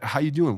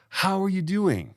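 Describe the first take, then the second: First: It sounds quick, casual and careless. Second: It sounds warm, attentive and sincere.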